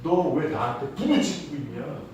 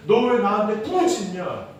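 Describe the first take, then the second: First: Said in the usual way. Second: Higher-pitched rhetorical challenge; acted reproach. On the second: God questioning Moses' cry, reproachful retelling. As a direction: voice God's puzzling retort with force. God's reply repeated with more force.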